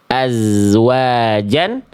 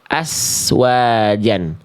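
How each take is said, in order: First: The consonant is a buzzing z sound. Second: The consonant is a hissing s sound. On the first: The speaker calls it right. "ini adalah bacaan yang tepat" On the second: The speaker calls it wrong. "ini bacaan yang keliru"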